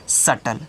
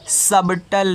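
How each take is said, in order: First: The word is said with no b sound. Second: The word is said with a b sound. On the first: The speaker calls it right. "बी तो silent हो गया" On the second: The speaker calls it wrong. "इसको आप सबटल नहीं पढ़ोगे"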